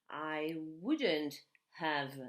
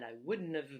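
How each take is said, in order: First: It is said at a normal speed. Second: It is said very fast.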